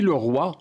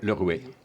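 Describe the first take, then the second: First: The vowel is pronounced as 'wa'. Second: The vowel is pronounced as 'oué'. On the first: This is the standard modern form. "le roi, on le prononce comment?" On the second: This is the regional form.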